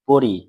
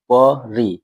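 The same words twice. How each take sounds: First: Said in the usual way. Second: পরি in two separate beats; split into syllables. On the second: Shown as a demonstration. Teacher counting syllables for pupils, পরি split in two. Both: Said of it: "এখানে কটি দল রয়েছে".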